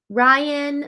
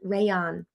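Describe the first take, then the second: First: The name begins with a 'rye' sound. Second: The name begins with a 'ray' sound. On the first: The speaker calls it wrong. "I said that wrong the first time" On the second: The speaker calls it right. "I know you've got an A in between"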